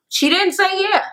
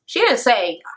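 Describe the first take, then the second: First: "she didn't say yeah" jumps way up on say; sing-song high "say"; high pitched emphasis. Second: Said in the usual way. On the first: Shown as a demonstration. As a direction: pitch "say" high, as a mocking correction.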